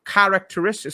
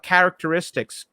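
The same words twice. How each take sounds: First: "characteristics" the British way; British pronunciation. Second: "characteristics" with American flat a; American pronunciation. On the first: Host contrasts accents for his guest, British "characteristics". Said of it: "goes British, it goes". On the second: Host contrasts accents for his guest, American "characteristics". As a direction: open "characteristics" on "care". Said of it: "certain American was like". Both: Shown as a demonstration.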